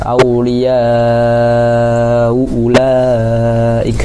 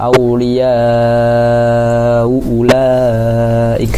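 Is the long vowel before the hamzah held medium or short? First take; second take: medium; medium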